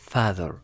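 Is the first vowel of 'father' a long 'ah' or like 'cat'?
cat. The first vowel sounds like the vowel in cat. "ينطق بطريقة كات فتصبح father"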